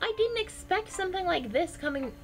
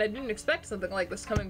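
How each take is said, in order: First: It is spoken in a different character's voice. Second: It is spoken in the speaking character's voice. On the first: The speaker calls it wrong. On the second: The speaker calls it right.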